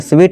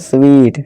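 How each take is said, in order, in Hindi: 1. स्वर छोटा है। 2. स्वर लंबा है। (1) "स्वीट नहीं" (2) "ये बड़ी की मात्रा है"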